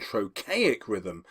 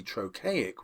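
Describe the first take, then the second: First: "trochaic" said slowly, first syllable leaned on; "trochaic" drawn out with a falling stress; slow stressed term. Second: Said in the usual way. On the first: Shown as a demonstration. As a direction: spell out "trochaic rhythm" slowly, TRO-chaic. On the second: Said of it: "where the first syllable is accented".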